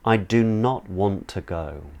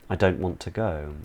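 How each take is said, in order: First: Do not is said in full. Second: Do not is contracted to don't. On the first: It sounds weightier and more emphatic. "sounds like it's got a bit more weight" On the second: It sounds casual and relaxed. "It sounds a bit more casual"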